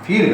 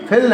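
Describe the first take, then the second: First: The vowel is said long. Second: The vowel is said short. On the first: The speaker calls it right. "हाँ फील कहते हैं" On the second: The speaker calls it wrong. "फिल नहीं"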